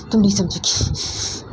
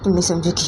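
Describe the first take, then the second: First: Slow, breathy whisper. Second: Said in the usual way. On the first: Shown as a demonstration. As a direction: hush it slowly as a secret.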